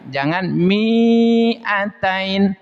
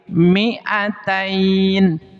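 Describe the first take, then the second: First: The vowel in the first syllable is drawn out long. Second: The vowel in the first syllable is kept short. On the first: The speaker calls it wrong. "jangan panjang, jangan mi'atain" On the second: The speaker calls it right. "tapi mi'atain. Jadi mi-nya itu di sini pen pendek"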